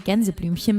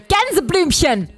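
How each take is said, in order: First: The word is said softly and gently. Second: The word is said harshly and aggressively. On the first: "you can say" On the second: "German only sounds so aggressive if you make it sound aggressive"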